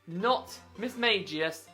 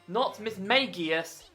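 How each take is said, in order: Both takes have the same delivery.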